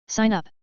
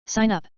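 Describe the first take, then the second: No difference in how they are said.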